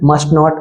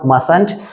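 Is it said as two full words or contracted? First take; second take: two words; contracted. First: It is said as two separate full words. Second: It is said as one contracted word.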